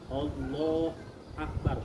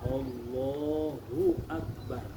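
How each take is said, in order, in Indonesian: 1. Suku kata "hu" sama sekali dihilangkan. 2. Tiap suku kata diucapkan dengan panjang normal. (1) "hu-nya nggak ada"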